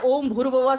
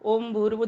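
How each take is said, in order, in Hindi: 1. यह पूरी आवाज़ में ज़ोर से बोला जाता है। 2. यह धीरे से बुदबुदाया जाता है, होंठ मुश्किल से हिलते हैं। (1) "ये वाचिक जप वाणी से शारीरिक जप बोलते हैं इसको" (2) "धीमे धीमी आवाज में होठ हिलते जाएंगे"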